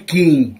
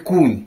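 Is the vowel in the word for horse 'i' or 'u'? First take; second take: i; u. First: The vowel in the word sounds like 'i'. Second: The vowel in the word sounds like 'u'. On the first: This is the form used in the neighboring village. "А там кажуть кінь" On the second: This is the form used in the local village. "У нас кажуть кунь"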